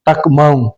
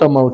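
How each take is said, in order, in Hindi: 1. 'tak' में k की आवाज़ साफ़ बोली जाती है। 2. 'tak' में k की आवाज़ साइलेंट है। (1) "ऐसा नहीं बोलना है" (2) "के साइलेंट है"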